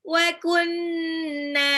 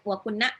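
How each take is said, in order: First: The n sound is held for two beats. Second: The n sound is short and not held. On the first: The speaker calls it right. "tapi harus ditahan" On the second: The speaker calls it wrong. "nggak boleh bacanya wa kunna gitu"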